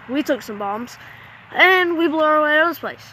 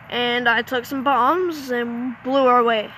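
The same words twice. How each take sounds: First: A hyped action-movie line; dramatic retake. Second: Said in the usual way. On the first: Shown as a demonstration. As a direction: land the blowing-out like an action trailer. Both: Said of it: "retakes the line".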